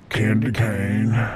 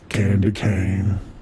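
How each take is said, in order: First: It is said in a put-on deep voice. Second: It is said in a put-on deep voice.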